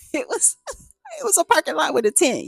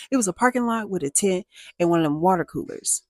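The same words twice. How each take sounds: First: Laughing disbelief. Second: Said in the usual way. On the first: Real, not acted. Laughing at the shabby lot.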